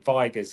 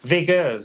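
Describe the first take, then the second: First: The name is said with an English pronunciation. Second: The name is said with a French pronunciation. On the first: This is how the name is said in the UK. "in the U K" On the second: This is how the name is said in France. "is how they say it in France"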